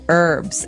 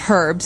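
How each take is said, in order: First: It is said the American way, with silent H. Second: It is said the British way, with an H.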